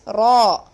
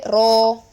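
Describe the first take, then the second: First: The vowel is an open ah sound. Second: The vowel is a rounded o sound. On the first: The speaker calls it right. "It is ah, ah, ah. Open your mouth and say ah" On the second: The speaker calls it wrong. "don't do not give O sound"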